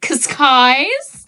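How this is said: The name is said with an American accent.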